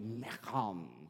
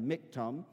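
First: The word is said with a throaty, growling sound. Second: The word is said plainly, without a throaty growl. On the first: "there's a kind of a growling associated. It's like" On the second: "you can pronounce it and kind of break it down"

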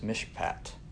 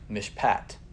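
First: The stress is on the first syllable. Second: The stress is on the second syllable. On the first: The speaker calls it wrong. "Sorry, I accented that wrong" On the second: The speaker calls it right. "It's on the second syllable"

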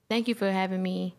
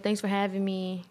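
First: It sounds cheerful and happy. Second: It sounds flat and unenthusiastic.

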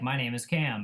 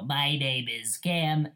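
First: The voice sounds like a normal speaking voice. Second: The voice sounds distorted and robotic. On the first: A person talking into the microphone. "you would talk, and you'd just be like" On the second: The microphone's robot mode output. "And then it'd go"

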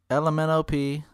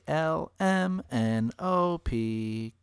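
First: The letters are rushed together quickly. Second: The letters are said evenly and separately.

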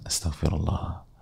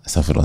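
First: It is said heartfelt, with feeling. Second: It is said mechanically, without feeling.

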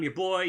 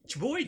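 First: The words are said plainly as 'your boy'. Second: The words blend together into 'cherboy'. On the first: "I meant to pronounce it Cherboy, but I didn't" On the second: "It's Cherboy"

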